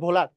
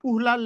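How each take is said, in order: First: The name starts with a 'v' sound. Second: The name starts with a vowel sound. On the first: The speaker calls it right. "Actual উচ্চারণ হচ্ছে ভোলার" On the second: The speaker calls it wrong. "যদিও কোনো কোনো বইয়ে উহলার লেখা আছে"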